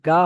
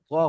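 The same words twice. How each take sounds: First: "গা" with an open A; unrounded pronunciation. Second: "গ" with a full, rounded O; full-letter pronunciation. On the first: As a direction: say "গা" open, without rounding the lips. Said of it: "গা হবে না". (খোলা আ দিয়ে "গা") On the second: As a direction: round the lips on "গ", not an open A. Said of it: "পুর অক্ষর হওয়ার কারণে". (মুখ গোল করে "গ") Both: Shown as a demonstration.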